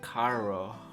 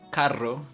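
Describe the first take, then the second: First: The R is soft, American-like, Costa Rican. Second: The R is strongly rolled.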